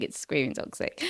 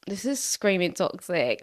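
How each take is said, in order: First: 1 whispered aside. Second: Said in the usual way. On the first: Real, not acted. Repeated under the breath.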